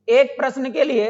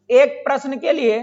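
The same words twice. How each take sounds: The two takes are said the same way.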